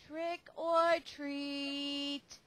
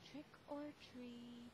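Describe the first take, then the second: First: It is said a little louder. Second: It is said very softly.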